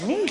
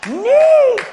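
First: A short rising, puzzled "Neat?"; puzzled question. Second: "Neat." squeaked much higher and louder, falling; dazed delight. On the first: Preacher echoes the dazed coworker's word, puzzled and questioning. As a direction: echo "Neat?" back as a baffled question. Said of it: "I'm like". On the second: Coworker coming out of the prayer, squealing in dazed delight. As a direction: squeal "Neat." like a stunned, happy kid. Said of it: "He's like". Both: Retold or imitated.

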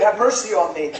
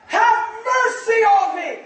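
First: Restrained mock yell, not raised; retold cry. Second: High, slow pleading shout; yelling louder. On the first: Preacher retelling blind Bartimaeus calling to Jesus, restrained cry. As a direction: call out for mercy at an ordinary preaching volume. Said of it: "he's yelling loud". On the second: Acted. Bartimaeus crying to Jesus over the crowd, yelling louder. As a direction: stretch the plea out at a high shout. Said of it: "He yelled all the louder".

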